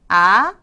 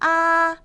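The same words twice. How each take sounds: First: The pitch rises steadily from mid to high. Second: The pitch stays high and level throughout. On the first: "코 높이에서 위로 그냥 쭉 끌어올려주는 음이에요" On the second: "눈높이 정도에서 어, 일, 일정하게 쭉 끌어주는 음입니다"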